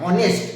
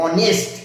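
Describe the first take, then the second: First: অনেস্ট again with no h, a rising vowel-first start; teacher repeats অনেস্ট, h dropped; silent h. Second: অনেস্ট said with no h, starting on the vowel; a clean vowel-first অনেস্ট, the h left silent. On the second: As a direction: open অনেস্ট straight on the vowel. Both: Shown as a demonstration. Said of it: "হনেস্ট না".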